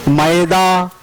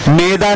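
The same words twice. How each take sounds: First: मैदा with a wide ae; correct maida. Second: मैदा with a narrow e; wrong meda. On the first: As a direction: open मैदा to maeda. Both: Shown as a demonstration. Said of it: "मैदा नहीं होता".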